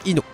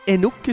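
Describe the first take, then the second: First: The word is pronounced as on the prairie. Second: The word is pronounced as in France. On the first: "Si on vous écoutez de la prairie, on dit Inuk" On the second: "Si vous m'écoutez de France, on dit Inuk"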